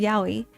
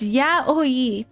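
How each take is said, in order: First: The word is said fast, run together. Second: The word is said slowly, syllable by syllable.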